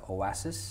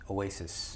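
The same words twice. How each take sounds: First: It is pronounced the Korean way. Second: It is pronounced the English way.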